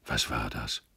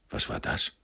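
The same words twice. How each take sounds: First: Low, soft, dazed question; pensive, lowered self-questioning; talking to himself. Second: Hushed, baffled question; soft, half-voiced astonishment; astonished. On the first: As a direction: wonder aloud to yourself. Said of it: "sagte er endlich laut vor sich hin". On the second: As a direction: ask under the breath in surprise. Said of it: "fragte Frau Taube erstaunt". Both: A narrator's reading.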